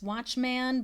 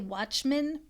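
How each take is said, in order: First: The last syllable is said fully as 'man'. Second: The last syllable is reduced to a weak vowel. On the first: "I'm just showing you it's watchman" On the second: "We usually say watchman instead of man"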